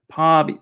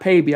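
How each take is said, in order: First: The first vowel sounds like 'ah'. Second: The first vowel sounds like 'ay'. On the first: The speaker calls it right. "Let me do it one more time" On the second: The speaker calls it wrong. "not not Payby. I was saying Payby"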